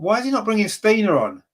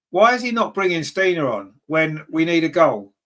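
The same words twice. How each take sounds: First: Higher, baffled outburst at the manager; exasperated question. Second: Said in the usual way. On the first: Real, not acted. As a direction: throw the question up in disbelief. Fan frustrated about substitutions.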